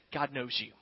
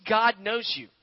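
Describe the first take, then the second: First: Hushed emphasis. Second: Said in the usual way. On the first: Real, not acted. Preacher assuring his congregation, low and hushed. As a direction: drop low and soft on God knows you. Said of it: "I want you to know today". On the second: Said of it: "If you're a follower of Jesus".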